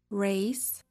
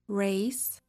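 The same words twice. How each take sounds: First: The R is a smooth, untrilled sound. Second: The R is a smooth, untrilled sound.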